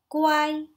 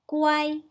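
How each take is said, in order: First: The syllable is said with the first tone. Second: The same.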